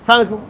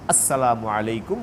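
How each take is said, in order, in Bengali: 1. প্রথম শব্দাংশটি বাদ পড়ে এবং শব্দগুলো একসঙ্গে মিশে যায়। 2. প্রতিটি শব্দাংশ স্পষ্ট ও পুরোপুরি উচ্চারিত হয়। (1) "এরকম না" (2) "শুদ্ধ ভাষায় শুদ্ধ উচ্চারণে স্পষ্ট করে আওয়াজ করে"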